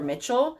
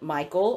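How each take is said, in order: First: The name is said like 'Mitchell', with a ch sound. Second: The name is said like 'Michael', with a k sound. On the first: "or Mitchell" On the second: "people have pronounced it Michael"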